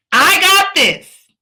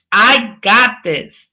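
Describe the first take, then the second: First: Loud, high, slow rallying cry; emphatic shouted affirmation; really meaning it. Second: Said in the usual way. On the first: Shown as a demonstration. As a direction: belt it out like you truly mean it. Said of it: "say it like you really mean it". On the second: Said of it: "that might have been okay".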